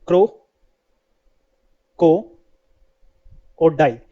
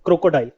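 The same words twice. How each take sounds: First: क्रो, को, डाइल each on its own; split into syllables. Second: Said in the usual way. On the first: Shown as a demonstration. Teacher breaks crocodile into three parts for learners, syllable by syllable. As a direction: leave a long gap after क्रो and after को. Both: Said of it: "ये तीन word से मिलकर बनता है".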